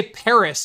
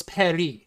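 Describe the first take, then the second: First: Paris said the English way, PAIR-iss. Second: Paris said the French way, pa-REE. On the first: Host showing what everyone says, English Paris. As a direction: say Paris with a sounded final s. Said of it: "We all say Paris". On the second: Host showing the native form, French Paris. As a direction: say Paris with a silent s. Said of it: "even though it's Paris". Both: Shown as a demonstration.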